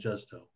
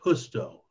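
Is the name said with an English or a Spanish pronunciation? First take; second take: English; Spanish. First: The name is said with an English pronunciation. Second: The name is said with a Spanish pronunciation. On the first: The speaker calls it wrong. "not Justo" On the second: The speaker calls it right.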